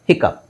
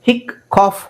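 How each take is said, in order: First: The word ends with the sound of cup. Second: The word ends with the sound of cough. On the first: The speaker calls it right. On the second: The speaker calls it wrong. "ಹಿಕ್ ಕಾಫ್ ಆಗುತ್ತಾ? ಇಲ್ಲ"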